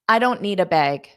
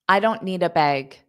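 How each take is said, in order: The two takes are said the same way.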